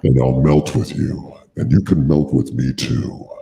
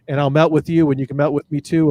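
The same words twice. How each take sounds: First: It is read in a sultry, sexy voice. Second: It is read in a plain, ordinary voice.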